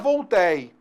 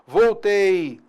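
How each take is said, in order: First: The e in the last syllable is open. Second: The e in the last syllable is closed. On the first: The speaker calls it wrong. "não é voltei" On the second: The speaker calls it right. "é timbre fechado"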